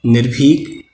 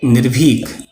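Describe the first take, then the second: First: निर्भीक with aspirated भी, clearly nir-bhik; correct spelling. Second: निर्भीक said as nirbik, bh without aspiration; wrong spelling. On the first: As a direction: say निर्भीक with a breathy bh. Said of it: "शुद्ध शब्द है". (सही उच्चारण: निर्भीक में भ साफ़) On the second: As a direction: drop the breath in निर्भीक: nir-bik. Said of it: "अशुद्ध शब्द है". (गलत रूप: निर्भीक को निर्बीक बोलना) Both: Shown as a demonstration.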